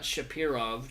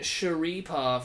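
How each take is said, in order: First: The p sound comes before the r sound. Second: The r sound comes before the p sound. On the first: The speaker calls it wrong. "not Shapirov, Joe Rogan" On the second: The speaker calls it right. "Magomed Sharipov"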